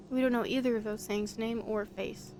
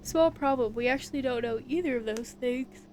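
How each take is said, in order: First: Said in the usual way. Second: Words stretched by a yawn. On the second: Real, not acted. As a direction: talk through a yawn. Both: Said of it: "I don't know why I'm yawning a lot".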